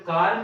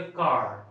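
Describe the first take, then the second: First: Said in the usual way. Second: "कार" with a curled, rolled r at the end; rolled r car. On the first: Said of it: "कार नहीं". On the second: Shown as a demonstration. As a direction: twist the r in "कार". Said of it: "इसको बोलिए कार".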